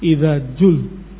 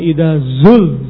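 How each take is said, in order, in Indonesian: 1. Kata kedua diawali dengan bunyi 'j'. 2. Kata kedua diawali dengan bunyi 'z'. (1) "Zai diganti menjadi jim"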